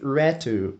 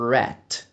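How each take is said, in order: First: The word ends with an added vowel sound. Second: The word ends on the consonant, no vowel. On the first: The speaker calls it wrong. "Os dois colocaram um som no final que não era para estar ali" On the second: The speaker calls it right. "sem o U no final"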